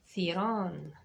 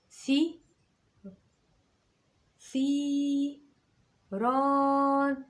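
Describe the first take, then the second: First: Said in the usual way. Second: ثي، ثيران drawn out slowly, syllable by syllable; slow teacher's model of ثيران; stretched syllable demo. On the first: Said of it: "لكن أنا قلت ثي ولا قلت ثي؟". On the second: Shown as a demonstration. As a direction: stretch the long vowels in ثيران clearly for pupils. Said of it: "طولت هنا في حاجتين".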